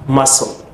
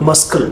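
First: The word is said with no 'k' sound in the middle. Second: The word is said with a 'k' sound in the middle. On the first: The speaker calls it right. "This C, again, is silent" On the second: The speaker calls it wrong. "Don't say muscle"

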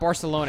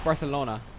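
First: The 'c' is said as a plain 's' sound. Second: The 'c' is said as a lisped 'th' sound. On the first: "it's not Barcelona" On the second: "like a lisp"

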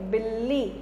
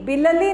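First: The first l is a short half sound. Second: The first l is said with a full vowel. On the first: The speaker calls it right. "बीच का छोटा सा बोलेंगे" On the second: The speaker calls it wrong. "बिलली नहीं बोलेंगे"

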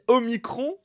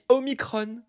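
First: The word is given a French pronunciation. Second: The word is given a Greek-style pronunciation. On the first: "elle dit Omicron" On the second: "et lui Omicron. Olivier Véran serait-il grec?"

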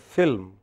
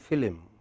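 First: The L runs straight into the M. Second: An extra vowel separates the L and M.

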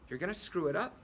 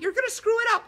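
First: A normal voice with a curious, questioning tune. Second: A high, squeaky cartoon-character voice. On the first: "maybe make it sound curious" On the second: "you could make it sound like Mickey Mouse"

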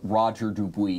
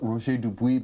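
First: The name is said with American English pronunciation. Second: The name is said with French pronunciation. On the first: "because we're here in the U.S" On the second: "You give me the French way"

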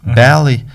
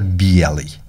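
First: It is said with a southern dialect pronunciation. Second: It is said with a northern dialect pronunciation. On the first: "там на юге говорят" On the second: "а на севере говорят «белый»"

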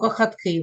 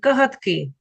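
First: The middle consonant is a voiceless [x]. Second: The middle consonant is a voiced [ɦ]. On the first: The speaker calls it wrong. "Ми ж не скажемо кахатки в нього" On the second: The speaker calls it right. "або у котика кагатки"

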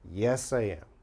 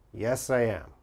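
First: I am is said as two separate words. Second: The same.

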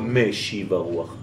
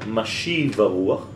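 First: The first word begins with an 'e' vowel. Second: The first word begins with an 'a' vowel. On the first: It asks for the wind to be returned. The speaker calls it wrong. "לא" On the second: It asks for the wind to blow. The speaker calls it right. "כי אתה אומר"

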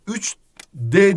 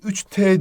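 First: The suffix starts with a voiced d sound. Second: The suffix starts with a voiceless t sound. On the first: The speaker calls it wrong. "3D değil" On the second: The speaker calls it right. "3T diyorsun"

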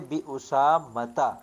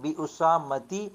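First: The word ends with a short 'ta' sound. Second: The word ends with a short 'ti' sound. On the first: The speaker calls it right. "बल्कि हम कहेंगे बी उसामता" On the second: The speaker calls it wrong. "हम बी उसामती या बी उसामतिन नहीं कहेंगे"

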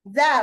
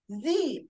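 First: The vowel is a short uh sound. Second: The vowel is a long ee sound. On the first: The next word starts with a consonant. "لا إما تقول ذا ذا بوك" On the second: The next word starts with a vowel. "لا إما نقول إيه؟ زي أنت"

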